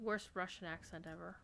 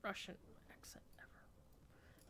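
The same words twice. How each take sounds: First: Said in the usual way. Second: Whisper. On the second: Real, not acted. Whispered aside mocking the accent.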